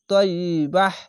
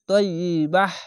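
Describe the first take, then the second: No difference in how they are said.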